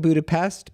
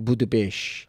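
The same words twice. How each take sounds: First: The word ends with a plain 'st' sound. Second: The word ends with an 'sht' sound. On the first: This is how the spelling suggests it is said. The speaker calls it wrong. "it looks like Budapest" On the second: This is how it is actually said. The speaker calls it right. "apparently you pronounce the S T sh"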